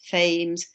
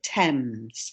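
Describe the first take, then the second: First: The word begins with a 'th' sound. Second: The word begins with a plain 't' sound. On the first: The speaker calls it wrong. "It's not pronounced Thames or anything like that" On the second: The speaker calls it right. "but Thames"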